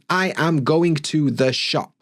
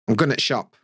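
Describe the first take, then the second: First: Every word is fully and evenly stressed. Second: Small words are reduced and linked together. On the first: The speaker calls it wrong. "people will pronounce every single word kind of stressed" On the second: The speaker calls it right. "I can only do that with weak forms and contractions"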